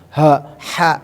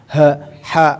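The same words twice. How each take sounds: Both takes have the same delivery.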